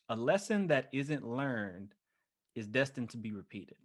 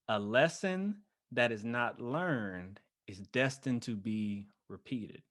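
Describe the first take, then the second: First: It is said at normal speed. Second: It is said slowly and deliberately.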